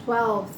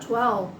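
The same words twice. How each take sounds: No difference in how they are said.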